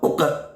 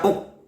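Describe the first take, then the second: First: The q sound is followed by an e vowel. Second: The q sound is clipped with no bounce. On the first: "Tidak boleh dibaca ... uke" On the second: "Tidak boleh dibaca uk"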